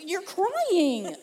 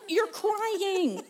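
First: Higher, startled husband voice with laughter; amused imitation of alarm; flustered husband. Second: High-pitched bewildered husband, half laughing; laughing mock astonishment; flustered husband. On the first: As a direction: mimic a husband baffled by tears. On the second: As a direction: imitate a husband stunned by crying. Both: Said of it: "this is him".

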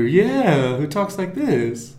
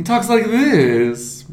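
First: High, slow cartoon-dog voice; lilting cartoon character drawl; Snagglepuss. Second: Slow, drawn-out high cartoon voice; goofy toon impression, slowed right down; Snagglepuss. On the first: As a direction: repeat the toon impression, drawn out. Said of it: "he's the cartoon character". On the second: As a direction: draw it out like a cartoon dog. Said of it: "he talks like this".

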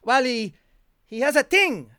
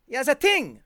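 First: Put-on French accent. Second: Put-on "ting" said with a hard t instead of th, in a French accent. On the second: French doctor's word repeated for the podcast host, French-accented "ting". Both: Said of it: "he was a French, a francophone".

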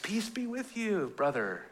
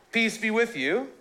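First: Laid-back hippie. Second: Said in the usual way. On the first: Retold or imitated. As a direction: drift it out like a seventies hippie. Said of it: "It's like Jesus Revolution... they're all hippies". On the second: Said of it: "so Jesus says".

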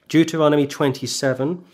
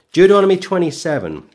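First: Said in the usual way. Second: Louder and higher, ringing call; emphatic announcement. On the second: Acted. Preacher calling his flock to the next chapter, emphatic and louder. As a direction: proclaim the chapter to the whole hall.

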